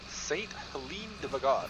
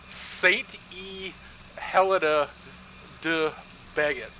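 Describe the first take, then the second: First: It is said with a French pronunciation. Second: It is said with an American English pronunciation.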